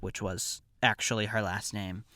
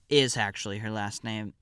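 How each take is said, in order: First: Said in the usual way. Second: IS hit firmly at the start; stress on IS. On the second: Real, not acted. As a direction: correct yourself by punching the word IS. Corrects "was" to "is.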